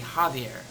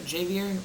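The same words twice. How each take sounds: First: The name begins with an H sound. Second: The name begins with a J sound. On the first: The speaker calls it right. "it's pronounced with an H, not a J sound" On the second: The speaker calls it wrong. "does anybody pronounce that Javier?"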